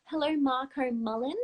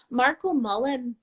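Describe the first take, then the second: First: Said in the usual way. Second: A tentative go at an Irish accent; attempted Irish accent. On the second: Shown as a demonstration. Host greeting a viewer from Ireland, attempted Irish accent. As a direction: try the name with an Irish lilt. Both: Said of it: "was that kind of an Irish accent".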